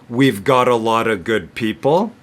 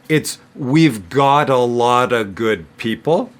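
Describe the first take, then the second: First: The sentence is spoken at medium speed. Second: The sentence is spoken slowly. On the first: "If I say it medium speed" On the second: "if I say it slowly"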